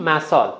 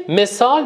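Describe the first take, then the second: First: «مثال» with its first vowel opened to a; accented mispronunciation. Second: Said in the usual way. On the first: Shown as a demonstration. Coach showing how misplaced vowels make an accent, «مثال» said as "masal".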